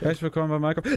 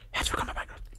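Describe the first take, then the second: First: The greeting is said loudly. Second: The greeting is said quietly.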